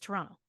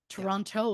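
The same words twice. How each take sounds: First: It is said in the relaxed, local way. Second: It is said in the full, careful way. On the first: "people who are very familiar with it, it's Toronto" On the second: "Toronto is accurate"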